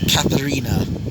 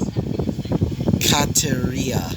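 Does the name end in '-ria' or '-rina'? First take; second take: -rina; -ria. First: The name ends in a '-rina' sound. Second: The name ends in a '-ria' sound. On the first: The speaker calls it wrong. "not Katharina. I've been saying that wrong multiple times" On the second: The speaker calls it right. "her actual name, which I realized I was saying it wrong, which apparently was"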